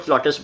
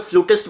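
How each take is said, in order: First: फ्लॉटिस्ट said with an "aw" in the first syllable; फ्लॉटिस्ट, open "aw" instead of "oo"; flautist pronunciation. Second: फ्लूटिस्ट said with an "oo" in the first syllable; फ्लूटिस्ट, first vowel like "flute"; flutist pronunciation. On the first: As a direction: say फ्लॉटिस्ट as FLAW-tist. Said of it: "कुछ लोग फ्लॉटिस्ट बोलते हैं". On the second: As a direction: say फ्लूटिस्ट as FLOO-tist. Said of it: "कुछ लोग फ्लूटिस्ट बोलते हैं". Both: Shown as a demonstration.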